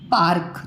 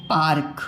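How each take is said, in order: Both takes have the same delivery.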